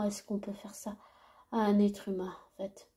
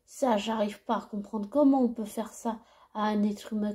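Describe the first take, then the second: First: Whispering. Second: Said in the usual way. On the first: Real, not acted. Repeats outrage, then whispers it.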